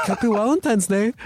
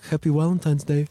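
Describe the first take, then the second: First: "Happy Valentine's Day" mimicked higher through laughter; quoting the gruff interviewer while cracking up; laughing imitation. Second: Lightly mock stern Russian Navy guy saying "Happy Valentine's Day"; a hint of a gruff interviewer deadpanning "Happy Valentine's Day"; intense Russian guy. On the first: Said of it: "He was like". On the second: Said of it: "he was like".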